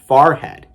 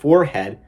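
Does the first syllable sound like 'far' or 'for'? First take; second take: far; for. First: The first syllable sounds like 'far'. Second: The first syllable sounds like 'for'. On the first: "a lot of them say farhead" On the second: "instead of forehead"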